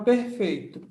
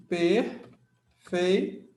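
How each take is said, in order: First: Said in the usual way. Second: "Perfeito" split as "per", "fei", "to" with long pauses; syllable by syllable. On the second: Shown as a demonstration. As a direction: separate each syllable of "Perfeito", very slowly. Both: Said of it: "Vamos fazer a separação silábica".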